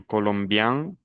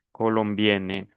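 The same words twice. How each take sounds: First: "Colombian" rising to a nasal vowel; nasal ending. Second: "colombienne" falling onto a clear n; non-nasal ending. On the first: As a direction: end "Colombian" through the nose, no full n. ("Colombian" con final nasal) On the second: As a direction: sound the n in "colombienne". ("colombienne" con la n clara, sin nasalizar) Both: Shown as a demonstration. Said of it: "no están pronunciando bien".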